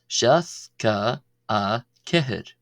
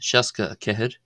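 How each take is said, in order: First: It is said slowly, syllable by syllable. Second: It is said at a quick, running pace.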